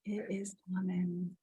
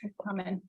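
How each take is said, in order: First: Breathy whisper, no voice. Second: Said in the usual way. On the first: Real, not acted. Host whispers her promise of the beach. Host repeats the affirmation softly.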